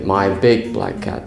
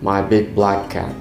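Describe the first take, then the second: First: The word big carries the stress. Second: The word black carries the stress. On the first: "if you want emphasis on the word big"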